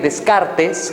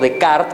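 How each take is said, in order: First: The name is said with a Spanish pronunciation. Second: The name is said with a French pronunciation.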